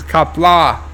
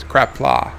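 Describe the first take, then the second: First: "Kapla" with no r after the K; correcting pronunciation. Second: "Crapla" with an added r after the C; mispronounced catchword. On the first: Shown as a demonstration. Viewer corrects the word crapla, saying "Kapla" without an r. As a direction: say "Kapla" with a plain K onset. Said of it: "although when John Araki comes in". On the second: Retold or imitated. Quoting how a regular says it, "Crapla" with an r. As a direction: say "Crapla", starting like "crap". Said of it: "he usually says".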